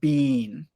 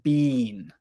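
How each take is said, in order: First: The vowel is long, like 'bean'. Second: The vowel is long, like 'bean'.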